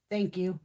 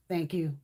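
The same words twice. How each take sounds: The two takes are said the same way.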